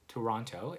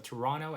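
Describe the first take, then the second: First: The last t is a clear t. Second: The last t is a soft flap. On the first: "So you would have the T sound" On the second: "I would call it just flapping"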